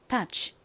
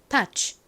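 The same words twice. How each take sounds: First: The final 'ch' sound is soft and breathy. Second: The final 'ch' sound is released strongly. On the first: The speaker calls it right. "이렇게 끝부분을 약하게 취, 취 바람 빠지듯이" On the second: The speaker calls it wrong. "끝에 취 소리는 세게 touch 이렇게 하지 않고"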